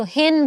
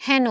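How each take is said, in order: First: হেন said "hen", with a close "e"; the rejected reading of হেন, pure "e"; close "e" vowel. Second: হেন said "hæno", vowel as in English "cat"; open "ae" vowel. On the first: Teacher showing what is not said, হেন with close "e". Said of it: "আমরা কিন্তু হেন বলি না". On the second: Teacher showing the accepted form, হেন with open "æ". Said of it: "তাহলে এর মতো উচ্চারণ হচ্ছে". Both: Shown as a demonstration.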